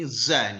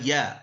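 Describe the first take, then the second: First: It begins with a z sound. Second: It begins with a y sound. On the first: The speaker calls it right. "padahal ini za nih" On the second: The speaker calls it wrong. "kalau orang Jawa biasanya za itu dibaca ya"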